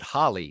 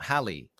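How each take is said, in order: First: The first vowel sounds like in 'hot'. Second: The first vowel sounds like in 'hat'. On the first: The speaker calls it wrong. "don't pronounce it Holly" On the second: The speaker calls it right.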